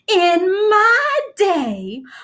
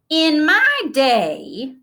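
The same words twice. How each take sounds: First: It is said in a much more dramatic way. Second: It is said in a plain, ordinary way. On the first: "then started over in a much more dramatic voice" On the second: "Grandma began"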